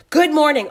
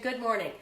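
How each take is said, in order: First: Loud reading of a shouted greeting; shouting. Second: Said in the usual way. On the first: Retold or imitated. Reading a viewer's shouted comment aloud, loud shouted greeting. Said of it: "she's shouting". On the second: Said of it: "She said".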